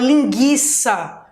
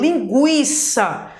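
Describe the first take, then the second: First: The u after the g is silent. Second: The u after the g is pronounced. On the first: The speaker calls it wrong. "para que eu não fale linguiça" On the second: The speaker calls it right. "que dá o som do U"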